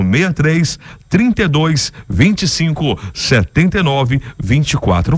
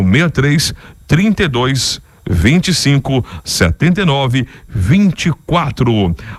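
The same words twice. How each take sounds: First: The number is said at normal speed. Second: The number is said very slowly.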